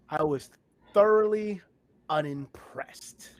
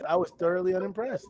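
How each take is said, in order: First: It is said with strong, emphatic conviction. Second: It is said casually, without much force.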